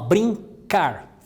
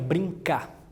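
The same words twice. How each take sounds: First: The final R sound is pronounced. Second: The final R sound is dropped.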